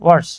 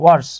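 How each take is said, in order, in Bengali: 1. শব্দটি স্পষ্ট w উচ্চারণ দিয়ে শুরু হয়। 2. শব্দটি স্পষ্ট w উচ্চারণ দিয়ে শুরু হয়।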